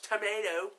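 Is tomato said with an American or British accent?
American. It is said with an American accent. The speaker calls it wrong. "American, so the one goes tomato"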